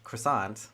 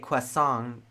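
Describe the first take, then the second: First: It is pronounced the usual English way. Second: It is pronounced closer to the French way. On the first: "the English croissant" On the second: "a little bit closer to the French pronunciation"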